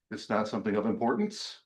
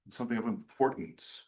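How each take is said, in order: First: IMPORTANCE lifted like a question; rising at the end. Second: IMPORTANCE falling, soft and final; dropped voice. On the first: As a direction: let the voice go up on importance. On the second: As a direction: drop your voice on importance. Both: Shown as a demonstration. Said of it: "You drop your voice".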